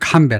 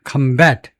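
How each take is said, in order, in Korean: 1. 강세는 첫 번째 음절에 있어요. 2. 강세는 두 번째 음절에 있어요. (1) "명사일 때는 combat 앞에다 액센트를 둔다" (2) "동사일 때는 combat 뒤에다 액센트를 둔다"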